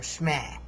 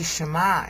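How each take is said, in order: First: The opening syllables run together into one. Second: The opening syllables are kept fully separate. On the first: "they say Shmeh or Shmeh" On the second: "they don't say Shema anymore"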